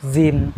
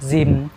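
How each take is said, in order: First: The word is clipped to one quick syllable. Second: The word is clipped to one quick syllable.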